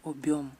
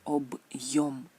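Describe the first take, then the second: First: The syllables run together without a y glide. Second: A y glide comes after the b. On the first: This word does not exist. The speaker calls it wrong. "no existe esta palabra" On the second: This is the real word. The speaker calls it right. "Él añade este y"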